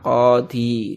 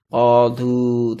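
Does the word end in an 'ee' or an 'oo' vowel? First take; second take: ee; oo. First: The word ends in an 'ee' vowel. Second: The word ends in an 'oo' vowel. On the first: The speaker calls it right. "maka dia tetap dibaca qadhi" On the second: The speaker calls it wrong. "tidak bisa dibaca qadhu"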